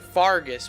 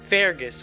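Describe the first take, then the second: First: The first vowel sounds like the one in 'car'. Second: The first vowel sounds like the one in 'her'. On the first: This is how the game says the name. "pronouncing it Fargus" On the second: This is how the speaker would usually say it. "I think we'd probably pronounce it"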